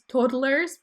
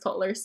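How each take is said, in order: First: The word is said in a careful, standard way. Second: The word is said quickly in a casual accent. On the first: The speaker calls it right. "I try to pronounce it as toddlers" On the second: The speaker calls it wrong. "when I talk fast, it just comes out as toddlers"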